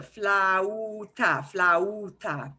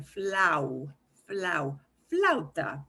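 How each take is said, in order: First: Flauta with a-u split into separate vowels; flauta broken apart. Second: Flauta with a-u gliding as one sound; flauta slid together. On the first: Teacher showing students the wrong way, flauta in split vowels. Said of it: "don't pronounce it". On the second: Teacher modelling for students, flauta with vowels blended smoothly. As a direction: slide the vowels of flauta into one fluid flow. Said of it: "say them as fluidly together". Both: Shown as a demonstration.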